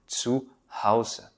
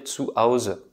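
First: The H sound at the start is pronounced. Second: The H sound at the start is dropped. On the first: The speaker calls it right. "je sais maintenant dire zu Hause" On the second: The speaker calls it wrong. "j'avais tendance à dire zu Hause parce qu'en français, on n'a pas ce H"

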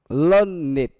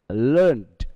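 First: The ending is an extra syllable, like 'id'. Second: The ending is a plain 'd' sound. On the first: It is used as an adjective. "learned khi nó là adjective" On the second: It is used as a verb. "learned khi nó là verb"

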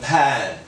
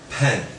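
First: The vowel is open, close to 'a'. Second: The vowel is closer, near 'e'. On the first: The speaker calls it wrong. "有很多人会念成pen 就不对" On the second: The speaker calls it right. "是pen 比较一点pen"

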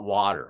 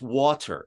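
First: The middle sound is a soft d. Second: The middle sound is a clear t. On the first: This is the way the speaker grew up saying it. The speaker calls it wrong. "It's not water" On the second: This is the way the speaker's wife says it. The speaker calls it right. "my wife's like, it's water"

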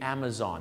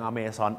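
First: It is said with an English-speaker's accent. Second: It is said the Thai way, sounding like amazing. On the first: The speaker calls it right. "แต่สำเนียงฝรั่ง" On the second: The speaker calls it wrong. "บ้านเราออกเสียงอเมซอนออกไปเลยเหมือน Amazing"

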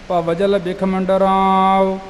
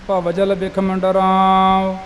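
The two takes are said the same way.

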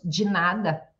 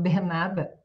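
First: The first word is said with a 'j' sound. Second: The first word is said with a plain 'd' sound. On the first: This is how people in São Paulo say it. "mas aqui em São Paulo nós falamos de nada" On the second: This is how people in Curitiba say it. "Em Curitiba, por exemplo, as pessoas já pronunciam mais o de"

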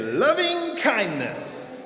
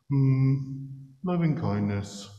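First: It is said strong and heroic. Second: It is said flat and unenthusiastic.

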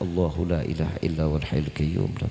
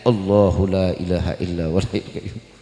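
First: It is recited softly and quietly. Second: It is recited somewhat louder and aloud. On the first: It is recited inwardly to oneself. "Bacain tuh pelan-pelan dalam hati" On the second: It is recited so others can hear. "Agak dijaharin dikit"

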